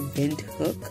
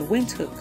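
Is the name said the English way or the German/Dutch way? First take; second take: German/Dutch; English. First: The name is said the German or Dutch way. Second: The name sounds like English wind and hook. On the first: The speaker is of Dutch or German origin. "If you are of the Dutch or German origin, you will say Windhoek" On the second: The speaker is an English speaker. "we just prefer to say Windhoek, like wind and hook"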